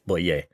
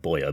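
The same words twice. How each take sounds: First: The name is said with a French pronunciation. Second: The name is said with an English pronunciation. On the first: The speaker calls it right. "but it's Boyer" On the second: The speaker calls it wrong. "I could go in Boyer"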